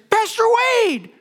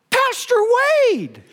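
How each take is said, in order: First: Retold shout. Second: Mock shout of his name from across the crowd, high on Pastor; retold shout. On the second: Protester calling out to the pastor, mock shout. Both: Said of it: "I heard someone from within that group shout".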